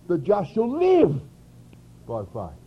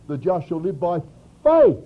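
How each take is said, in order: First: The word 'live' carries the emphasis. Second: The word 'faith' carries the emphasis. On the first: The point is having life rather than death. "where the question was life or death" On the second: The point is that it comes through faith. "If we read it from Romans, ... we'd read it like this"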